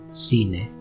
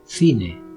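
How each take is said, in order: First: The first consonant sounds like English s. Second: The first consonant sounds like English th. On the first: "twice with a Latin American accent" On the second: "twice with a Spanish accent"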